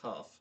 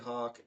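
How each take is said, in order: First: The name ends with an f sound. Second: The name ends with a k sound. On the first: The speaker calls it right. "I think it's Huff" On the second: The speaker calls it wrong. "I don't think it's pronounced that way"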